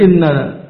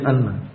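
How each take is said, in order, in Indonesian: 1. Kata ini diawali dengan vokal 'i'. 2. Kata ini diawali dengan vokal 'a'. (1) "maka inna boleh dikasra" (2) "boleh di fathah hamzahnya"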